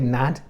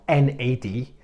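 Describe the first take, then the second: First: It is said as a single word. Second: It is spelled out letter by letter. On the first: The speaker calls it right. "you notice I say N A D" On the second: The speaker calls it wrong. "not N A D"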